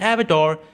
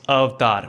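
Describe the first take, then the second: First: The name is said with an English pronunciation. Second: The name is said with a Hindi pronunciation. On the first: "it's not एवेटार" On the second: "it's अवतार"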